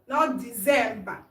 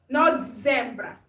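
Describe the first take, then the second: The two takes are said the same way.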